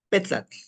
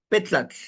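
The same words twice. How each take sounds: Both takes have the same delivery.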